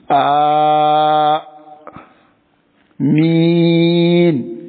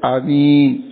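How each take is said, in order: First: The first vowel is drawn out long. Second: The first vowel is short and clipped. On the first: The speaker calls it right. "Le A tamoud, tu tires A Min" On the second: The speaker calls it wrong. "il y a certains frères Amin, on n'est pas Amin là"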